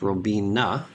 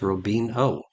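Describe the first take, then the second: First: The name ends with an 'ah' vowel. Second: The name ends with an 'oh' vowel. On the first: The speaker calls it right. "It's Robina" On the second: The speaker calls it wrong. "he mispronounces it as Robino"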